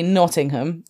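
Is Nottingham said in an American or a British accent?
British. The name is said in a British accent. This is how the town's name is really said. The speaker calls it right. "when it's clearly Nottingham"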